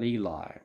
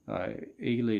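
First: The name ends with an 'eye' sound. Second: The name ends with an 'ee' sound. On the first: The speaker calls it wrong. "not Eli" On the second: The speaker calls it right. "Ely to rhyme with freely"

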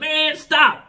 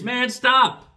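First: It sounds delighted and approving. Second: It sounds serious and annoyed.

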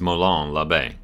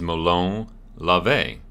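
First: It is pronounced the common American way. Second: It is pronounced the Greek way. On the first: "The most common way in the United States" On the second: "the more proper Greek way to pronounce it"

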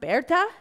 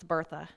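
First: The name is pronounced the German way. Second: The name is pronounced the English way.

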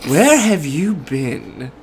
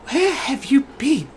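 First: The voice is plain, not breathy. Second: The voice is soft and breathy. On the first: The speaker calls it wrong. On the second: The speaker calls it right. "There we go, I'll do that one. I'll make it breathy"

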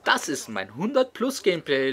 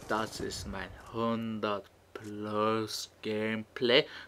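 First: The phrase is spoken quickly. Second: The phrase is spoken slowly and drawn out. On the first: This is a sped-up commentary style. "wenn der CX asozial ein Double-Time-Commentary machen würde" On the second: This is the usual commentary style. "diesem Slow Motion Commentary Stil"

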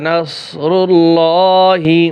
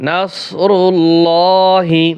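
No difference in how they are said.

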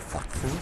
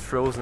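First: The middle consonant is a sharp 'ts' sound. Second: The middle consonant is a soft 'z' sound. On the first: It is a joke version of the name. The speaker calls it wrong. "aber Frotzen ist lustiger" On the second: It is the real name. The speaker calls it right. "das heißt Frozen"

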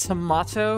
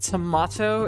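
First: The word is said in a British-style accent. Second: The word is said in a British-style accent.

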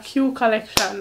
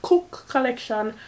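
First: The first part is said as the letter Q. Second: The first part is said as one word, cook. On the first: "or Q Collection" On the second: "not Cook Collection"

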